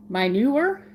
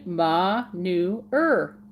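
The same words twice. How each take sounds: First: "Manure" said as "my-noo-er" with a rising end; variant pronunciation. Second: "manure" said slowly as "mah-noo-er", falling at the end; correct pronunciation. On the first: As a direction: try "manure" with a "my" start. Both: Shown as a demonstration. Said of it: "That's how I'm supposed to say it".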